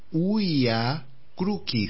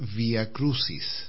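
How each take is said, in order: First: The c in Crucis sounds like k. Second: The c in Crucis sounds like s. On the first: The speaker calls it right. "En latín eso se pronunciaba Vía Crucis. ... la C es una oclusiva ... en un sonido K" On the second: The speaker calls it wrong. "No se debería pronunciar Vía Crucis"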